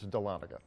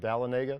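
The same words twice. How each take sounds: First: It is said not sounding like Talladega. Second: It is said to sound like Talladega. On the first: The speaker calls it right. "No, it's Dahlonega" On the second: The speaker calls it wrong. "some people see it and they think ta- Talladega"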